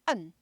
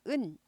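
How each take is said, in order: First: The syllable is barked from the throat. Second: The syllable is soft and smooth. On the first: The speaker calls it right. "목구멍에서 짖으면서 나온 소리예요" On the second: The speaker calls it wrong. "부드러운 은이 아니라"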